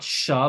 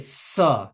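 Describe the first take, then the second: First: It begins with an sh sound. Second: It begins with a plain s sound. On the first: This is the letter's standard pronunciation. "They're both pronounced as sh" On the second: This is a common everyday pronunciation. "many Gujaratis pronounce them like an S"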